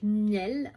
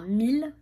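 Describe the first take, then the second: First: The name sounds like the French word 'miel'. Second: The name sounds like the French word 'mille'. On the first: This is how the speaker habitually says it. The speaker calls it wrong. "moi je dis Miel" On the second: This is the official pronunciation. The speaker calls it right. "ça se prononce Mille"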